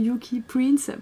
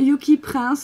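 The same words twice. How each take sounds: First: Prince is pronounced with English sounds. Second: Prince is pronounced with French sounds. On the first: "je le prononce en anglais" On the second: "il s'appelle"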